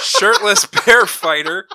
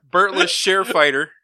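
First: "Shirtless Bear Fighter" said slowly, loud and higher; deliberately fixing "Shirtless Bear Fighter" word by word; "Shirtless Bear Fighter" pronounced right after the slip; careful correction. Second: "Burtless Share Fighter" with B and Sh swapped, said louder; tongue-tied spoonerism "Burtless Share Fighter"; "Burtless Share" slipped out, laughing it off; garbled title. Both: Real, not acted.

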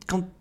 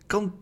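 The two takes are said the same way.

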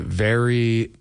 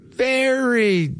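First: Said in the usual way. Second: Very stretched and much higher, falling; emphatic very. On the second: Real, not acted. Host praising a late colleague: very stretched high and falling. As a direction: lift the very high and draw it out.

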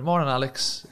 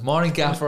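First: Said in the usual way. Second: Put-on posh accent. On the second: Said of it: "In your best posh accent".

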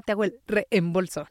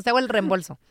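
First: "reembolso" as re-em-bolso, two distinct e's; overcareful double e in "reembolso"; both e's separated. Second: "reembolso" run together as rem-bolso; everyday contracted "reembolso", the double e fused; merged e's. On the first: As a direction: say "reembolso" with a break between the e's. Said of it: "casi nadie dice". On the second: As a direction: say "reembolso" casually with one single e. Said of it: "Normalmente decimos". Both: Shown as a demonstration.

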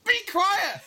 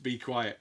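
First: Very high, loud mimicked shriek; Missus Blamires. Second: Said in the usual way. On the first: Music teacher saying it right back at pupils, shrieked impression. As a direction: screech it back at the class. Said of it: "she would say right back at us".

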